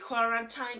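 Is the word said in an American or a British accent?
American. The word is said in an American accent. "depending of whether you are colonized by the Americans"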